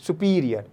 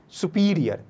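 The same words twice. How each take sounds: The two takes are said the same way.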